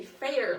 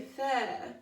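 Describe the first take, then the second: First: "Fair" with a full hard American r at the end; "Fair" the way you'd say it at the state fair, r sounded; "Fair" with the r clearly rolled into the end, a little louder. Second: "Fair" with no r, an open British "fah" ending; "Fair" as "feh-ah" with the r left off; "Fair" with a non-rhotic British ending; dropped r. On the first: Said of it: "like we're going to the state fair". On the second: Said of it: "drop the R and pretend you're British". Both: Shown as a demonstration.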